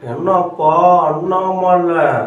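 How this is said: It is slow and drawn out, from the tongue-tip. This imitates the actor's voice. "இழுத்து நுனி நாக்கால பேசணும்"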